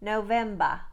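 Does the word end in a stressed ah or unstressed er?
stressed ah. It ends in a stressed ah sound, no R.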